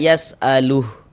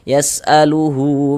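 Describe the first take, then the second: First: The word ends clipped, with no final vowel. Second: The word ends with a lengthened final vowel. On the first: The reader stops after this word. "Gugur tanda panjangnya karena berwakaf di mad silah ini" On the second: The reader continues into the next words. "dibaca dengan panjang dua harokat"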